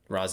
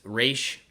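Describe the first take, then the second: First: The name ends in an s sound. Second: The name ends in an sh sound.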